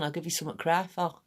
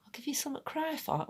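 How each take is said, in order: First: Lightly voiced mum's threat; imitating mum. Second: High, hushed, quick questioning repeat; softly squeaked mock-outraged question; incredulous echo. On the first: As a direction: rattle it off like mum's stock warning. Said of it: "My mum used to say". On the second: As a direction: throw the threat back in mock disbelief. Child echoing mum's threat in disbelief.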